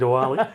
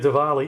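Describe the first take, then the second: First: The middle consonant has no V sound. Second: The middle consonant has a slight V sound. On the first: The speaker calls it wrong. "stop offending people by saying Diwali" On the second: The speaker calls it right. "start calling it Diwali"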